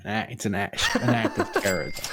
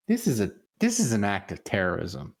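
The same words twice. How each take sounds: First: Laughing. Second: Said in the usual way. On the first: Real, not acted. Repeats line while laughing.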